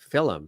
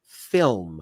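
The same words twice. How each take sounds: First: It is said the Irish way. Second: It is said the American way. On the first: This is how the speaker's father says it. "my father has always said film" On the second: This is how people say it locally. "over here we say film"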